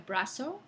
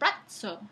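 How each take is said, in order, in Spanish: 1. La z se dice como una s normal. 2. La z se dice como una africada ts. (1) "hoy en día brazo" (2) "en la época medieval se decía brazo, con esa africana tz"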